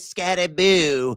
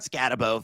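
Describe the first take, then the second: First: The name ends with a ghostly 'boo' sound. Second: The name ends with a short 'bo' sound. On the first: The speaker calls it right. "We got to pronounce it correctly. It is Scattaboo" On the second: The speaker calls it wrong. "It is not Scatabo"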